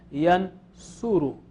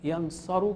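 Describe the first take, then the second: First: The second vowel is a 'u' sound. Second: The second vowel is an 'a' sound. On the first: "ये ऊ जो है इसमें चलेगा" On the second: "यनसरु के बजाय"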